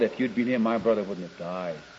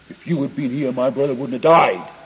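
First: It sounds gentle and trusting. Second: It sounds accusing and reproachful.

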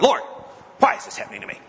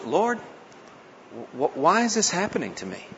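First: The question sounds belligerent and accusing. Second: The question sounds honest and sincere. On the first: The question is an angry accusation. The speaker calls it wrong. "No belligerency. Not" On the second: The question is a sincere request for understanding. The speaker calls it right. "It was honest"

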